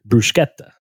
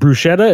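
First: The middle consonant sounds like sk. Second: The middle consonant sounds like sh. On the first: The speaker calls it right. "is actually pronounced" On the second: The speaker calls it wrong. "you don't pronounce the H"

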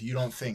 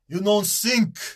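First: Think begins with a th sound. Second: Think begins with an s sound. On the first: The speaker calls it right. "instead of you don't think" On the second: The speaker calls it wrong. "they don't do the th thing"

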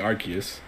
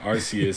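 First: The middle consonant is a k sound. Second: The middle consonant is an s sound. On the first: The speaker calls it wrong. "that sounds more like if you have a Q in there" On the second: The speaker calls it right. "Arceus sounds a bit better"

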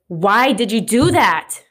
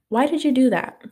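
First: It is asked in an angry tone. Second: It is asked in a calm tone.

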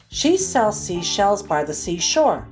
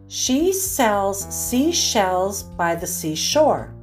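First: The sentence is read at a faster pace. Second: The sentence is read at a slow pace. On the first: "the second time a bit faster" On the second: "I'll read each one slowly"

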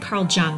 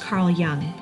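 First: The surname begins with a J sound. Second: The surname begins with a Y sound. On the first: The speaker calls it wrong. "I said Carl Jung last week" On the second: The speaker calls it right. "it's pronounced Carl Jung"

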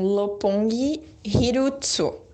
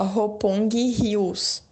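First: It is said with a Japanese accent. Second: It is said with a Portuguese accent.

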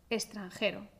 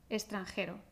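First: The x is pronounced as an s sound. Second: The x is pronounced as an s sound.

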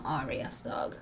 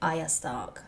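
First: The name is said with an R sound. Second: The name is said without an R sound. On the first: The speaker calls it wrong. "not Arya Stark. Because I don't think there's an R" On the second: The speaker calls it right. "like Arya Stark"

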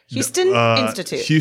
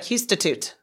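First: The two words are said clearly and separately. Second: The two words are merged into one fast word.

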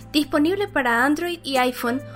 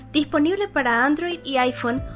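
No difference in how they are said.

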